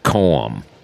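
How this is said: It sounds like calm, ending on an m. This is how locals in the river parishes say it. "people there with their accent will pronounce it Coam. almost like you're saying the word C-A-L-M"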